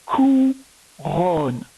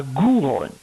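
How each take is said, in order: First: Slow "couronne" in two syllables, starting with K; correct hard K. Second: "gouronne" with a voiced G at the start; wrong G pronunciation. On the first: Teacher confirming the right word for pupil, slow hard K. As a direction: stretch "couronne" as "cou", then "ronne". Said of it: "c'était bien couronne". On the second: Teacher showing pupil the mistake, wrong G pronunciation. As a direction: say "gouronne", G in place of K. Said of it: "et pas gouronne". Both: Shown as a demonstration.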